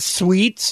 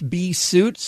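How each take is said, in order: First: The vowel sounds like 'ee', as in 'sweets'. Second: The vowel sounds like 'oo', as in 'suits'. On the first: The speaker calls it wrong. "And it's not sweets" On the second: The speaker calls it right. "it's bsuits, S-U-I-T-S"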